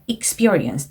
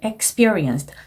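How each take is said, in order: First: The first syllable does not sound like X. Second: The first syllable sounds like the letter X. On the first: The speaker calls it right. "이렇게 발음하시는 거고요" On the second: The speaker calls it wrong. "X로 발음하지 않게 조심해 주셨어야 됩니다"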